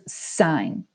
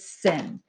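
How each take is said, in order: First: The word has a long vowel, like 'sign'. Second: The word has a short vowel, like 'sin'. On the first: The speaker calls it right. "No, in math, this is sine" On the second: The speaker calls it wrong. "The number one mistake that I'll hear kids say is they'll pronounce this as sin"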